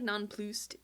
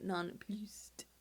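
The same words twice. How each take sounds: First: Nonplussed said with a put-on fancy accent; nonplussed in a mock posh accent; weird accent on nonplussed. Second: Nonplussed whispered with a rising tune; nonplussed in a hushed mock accent. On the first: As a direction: give nonplussed a funny accent. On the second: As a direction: breathe nonplussed with a lift at the end. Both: Shown as a demonstration. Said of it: "you have to give it a weird accent".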